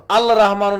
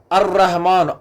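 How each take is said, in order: First: अल रहमान with a clear l before रहमान; wrong reading shown. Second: अर्रहमान with a rolled double r and no l; assimilated sun letter. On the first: Teacher showing the wrong reading अल रहमान, l sounded. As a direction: pronounce the l in अल रहमान as the mistake. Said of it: "नहीं पढ़ते हम". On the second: Teacher modelling the right reading अर्रहमान, doubled r. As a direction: roll the double r straight from a in अर्रहमान. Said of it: "अल रहमान नहीं पढ़ते हम". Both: Shown as a demonstration.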